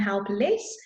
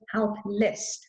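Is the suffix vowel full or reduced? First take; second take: full; reduced. First: The suffix is said with a full vowel. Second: The suffix is said with a reduced vowel. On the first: The speaker calls it wrong. "it doesn't become helpless" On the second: The speaker calls it right. "I pronounce it helpless"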